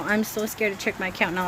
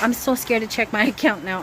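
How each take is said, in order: First: Said in the usual way. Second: Nervous laugh. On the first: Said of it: "repeated line". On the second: Real, not acted.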